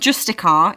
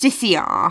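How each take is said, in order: First: The word ends in '-ticar' without an extra syllable. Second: The word ends in '-ticiar' with an extra syllable. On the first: The speaker calls it wrong. "I keep saying this wrong because it's not Justicar" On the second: The speaker calls it right.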